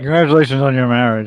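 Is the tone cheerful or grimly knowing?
grimly knowing. It sounds grim and knowing, like commiseration.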